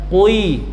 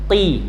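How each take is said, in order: First: A k sound followed by lip rounding, kwi. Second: A deep back consonant with no lip rounding. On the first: The speaker calls it wrong. "bukan kui" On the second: The speaker calls it right. "pangkal lidah paling belakang"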